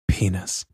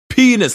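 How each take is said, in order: First: The word is muttered quietly under the breath. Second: The word is yelled out loudly.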